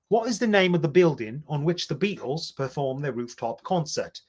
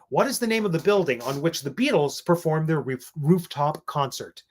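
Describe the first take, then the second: First: It is said in a British accent. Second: It is said in an American accent.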